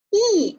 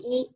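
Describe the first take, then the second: First: The pitch falls sharply from high to low. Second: The pitch stays high and level. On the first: "四声呢读乙啊" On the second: "它读在一声的时候，它读一啊"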